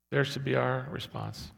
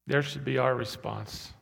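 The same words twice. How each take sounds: The two takes are said the same way.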